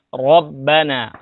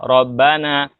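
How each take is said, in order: First: The r is heavy, with a thick sound. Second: The r is light, with a thin sound. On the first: The speaker calls it right. "jadi harus ro" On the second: The speaker calls it wrong. "Tidak boleh dibaca tipis atau tidak tebal"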